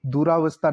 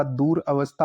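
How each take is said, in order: First: दुरावस्था run together with long raa; mispronounced compound. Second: Said in the usual way. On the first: Shown as a demonstration. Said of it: "दुरावस्था नहीं होता". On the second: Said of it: "दूर अवस्था होता है".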